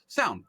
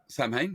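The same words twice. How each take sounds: First: It is said the British way. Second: It is said the American way.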